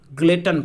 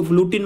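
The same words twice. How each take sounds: First: ग्लटन said glut-un, short u, like glutton; the right way: ग्लटन, glut-un; correct pronunciation. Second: ग्लूटिन said gloo-tin, with a long oo and a tin ending; the wrong way: ग्लूटिन, gloo-tin; wrong pronunciation. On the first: Teacher gives students the correct reading, glut-un. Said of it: "ग्लटन पढ़ा जाता है". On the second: Teacher shows students the mistaken reading, gloo-tin. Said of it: "इसको ग्लूटिन मत पढ़िएगा". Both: Shown as a demonstration.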